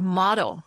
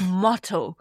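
First: The T is flapped and sounds like a D. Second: The T is pronounced as a crisp, clear T. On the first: "在这个North American accent 里面，因为你们的 T 经常就是发成 D 的音嘛" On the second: "然后到英国呢，他们就是"

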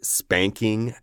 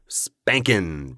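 First: The ending is a full -ing with 'ng'. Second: The ending is reduced to -in with 'n'. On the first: "we will spell the whole word spanking out" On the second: "usually when we're saying it, it will come out as spankin'"

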